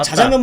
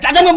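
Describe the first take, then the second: First: The first consonant is plain and unstressed. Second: The first consonant is tense and forceful. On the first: The speaker calls it wrong. "자장면 먹으러 갈래? 이거보다" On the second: The speaker calls it right. "짜장면 먹으러 가자. 이게 탁 붙잖아"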